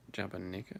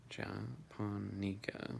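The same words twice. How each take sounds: First: "Japonica" run together quicker, rising as a question; unsure, softer "Japonica?" with a questioning lift; alternative pronunciation attempt. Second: "Japonica" very slow, broken into separate syllables; drawn-out, tentative "Ja-pon-ica"; careful pronunciation attempt. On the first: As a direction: offer "Japonica?" as one unbroken word, softly. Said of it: "Or Japonica?". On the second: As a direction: sound out "Japonica" piece by piece, softer. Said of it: "if I'm still getting it wrong". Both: Shown as a demonstration.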